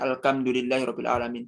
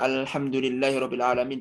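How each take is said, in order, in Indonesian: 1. Bunyi h dalam alhamdu dibaca seperti k. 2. Bunyi h dalam alhamdu adalah h berdesis.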